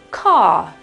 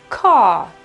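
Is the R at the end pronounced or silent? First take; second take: silent; silent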